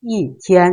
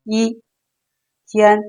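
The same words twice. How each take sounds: First: อีเทียน joined, อี falling sharply before high level เทียน; falling fourth-tone อี in อีเทียน; first tone becomes fourth. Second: อี้ held high and level, เทียน said separately; isolated high-level อี้, pause, เทียน; citation first tone. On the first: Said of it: "เราจะเปลี่ยนจากเสียงหนึ่งเป็นเสียงสี่". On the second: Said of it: "เวลาที่เราอ่านตัวเดียวๆ". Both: Shown as a demonstration.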